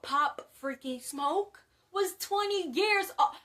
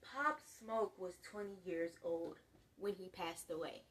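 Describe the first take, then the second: First: Loud, high, incredulous outburst; astonished near-shout; shocked exclamation. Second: Put-on lower, quieter restating of "Pop Smoke was twenty years old"; hushed, deliberate "twenty years old"; emphatic repeat. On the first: Real, not acted. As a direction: blurt it out in disbelief, building louder. Shocked revelation about rapper's age. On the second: Shown as a demonstration. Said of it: "I don't think you guys hear me".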